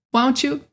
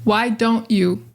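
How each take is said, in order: First: "why don't you" squashed into one quick "wa-oncha"; connected speech. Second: Said in the usual way. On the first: Shown as a demonstration. Showing how we talk, casual connected speech. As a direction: run don't and you together, dropping the d. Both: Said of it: "We do talk like that".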